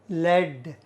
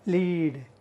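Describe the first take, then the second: First: "Led" with a short e; short-e pronunciation. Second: "Lead" said as LEED; long ee in "Lead", softly spoken; long-ee pronunciation. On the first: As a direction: rhyme "Led" with bed, softly. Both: Shown as a demonstration. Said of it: "we pronounce it as led".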